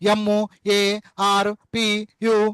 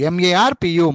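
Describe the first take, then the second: First: Each letter is said separately with breaks between. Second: The letters are run together in two syllable groups. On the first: The speaker calls it wrong. "అది కాదు, చెత్త అంటారు దాన్ని" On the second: The speaker calls it right. "మార్పు అన్నప్పుడు MAR మార్, పు PU పు"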